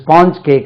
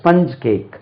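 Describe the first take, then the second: First: The vowel in sponge is a long 'ah'. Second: The vowel in sponge is a short 'uh'. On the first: The speaker calls it wrong. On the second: The speaker calls it right.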